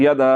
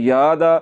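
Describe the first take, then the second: First: YADA with a short "ya", no stretch; short quick ya. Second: "यादा" with a long drawn "yaa"; wrongly lengthened ya. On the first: Teacher shows students the right reading, short first vowel in यदा. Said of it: "इसको जल्दी से पढ़ देना". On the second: Teacher shows the mistake to avoid, long first vowel in यादा. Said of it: "खड़ी ज़बर वाली है". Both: Shown as a demonstration.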